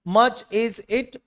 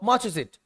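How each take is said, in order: First: Each word is said separately. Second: The words run together quickly without breaks.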